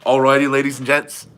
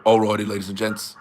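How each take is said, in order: First: Mock Aussie video intro at usual pitch; lightly imitated presenter greeting; Ryan Bowen. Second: Deeper-voiced video intro impression; low mock Aussie presenter; Ryan Bowen. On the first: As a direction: try the catchphrase without deepening it. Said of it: "is that what it is?". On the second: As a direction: drop the voice low for the catchphrase. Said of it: "it is deeper voice".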